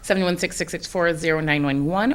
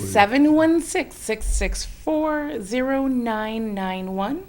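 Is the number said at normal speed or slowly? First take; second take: normal speed; slowly. First: The number is said at normal speed. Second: The number is said slowly.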